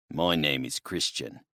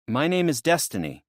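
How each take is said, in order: First: Lower, softer big man's voice; a lightly voiced burly bushman; low and quiet, matter-of-fact. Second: Put-on higher, firm young woman's voice; lightly voiced young woman, guarded; higher, clipping her own name out. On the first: Big man introduces himself. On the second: Destiny answers curtly.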